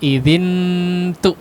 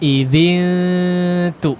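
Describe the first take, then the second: First: The tongue touches early, giving a full n. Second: The n is a held nasal without tongue contact. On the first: The speaker calls it wrong. "Bukan idzin tu ya. La" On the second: The speaker calls it right. "Si lidahnya jangan ditempelkan dulu ke makhraj ta ya"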